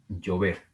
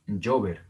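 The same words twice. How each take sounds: First: Llover stressed on final VER; stress on last syllable. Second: Llover wrongly stressed on LLO; wrong first-syllable stress. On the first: Teacher correcting to what we say, llover stressed on VER. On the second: Teacher showing what we don't say, llover stressed on LLO. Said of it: "No decimos". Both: Shown as a demonstration.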